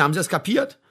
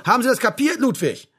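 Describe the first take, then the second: First: Firm, slightly raised question; stern demand. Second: High, loud, barked question; angry repeated demand. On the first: Sergeant checks that Ludwig has understood, sternly. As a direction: demand confirmation without shouting. First demand, before repeating it louder. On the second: Sergeant cuts off Ludwig's objection, barking angrily. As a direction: cut off the excuse harshly. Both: Acted.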